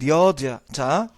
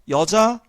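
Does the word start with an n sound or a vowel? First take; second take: n sound; vowel. First: The word begins with an n sound. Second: The word begins with a vowel sound. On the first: This is the old form. "옛날 중세 때는요 이 두음 법칙이 적용되지 않아서" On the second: This is the modern form. "여자라고 쓸 거를"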